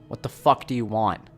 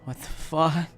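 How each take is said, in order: First: It is said in an angry, commanding tone. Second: It is said as a frightened whimper.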